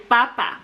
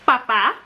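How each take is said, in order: First: "papa" stressed on the first syllable, falling. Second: "papá" stressed on the second syllable, rising; stress on last syllable. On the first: Teacher reviewing the word for potato, stress on the first syllable of "papa". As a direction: lean on the first A of "papa", let the second drop. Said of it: "father as opposed to potato". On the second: Teacher reviewing the word for father, stress on the last syllable of "papá". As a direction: hit the final A of "papá". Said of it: "that accent mark gives it that emphasis". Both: Shown as a demonstration.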